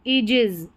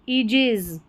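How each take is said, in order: First: The first vowel is a long 'ee' sound. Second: The same.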